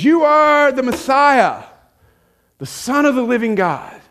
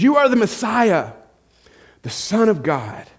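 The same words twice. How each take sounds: First: Blurted out. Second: Said in the usual way. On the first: Retold or imitated. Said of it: "he just blurts this out". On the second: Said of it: "He says".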